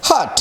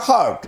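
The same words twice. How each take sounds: First: "হার্ট" said as "haat", no R before T; R left silent. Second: "হার্ট" with R heard before the final T; R and T sounded. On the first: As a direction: drop the R in "হার্ট", keep final T. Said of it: "কিন্তু এই উচ্চারণটা হবে না". ("হার্ট"-এ আর বাদ দিয়ে "হাট") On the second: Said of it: "এ আর টির উচ্চারণটা সঠিক করা গেল". ("হার্ট"-এ আর ও টি স্পষ্ট উচ্চারণ) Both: Shown as a demonstration.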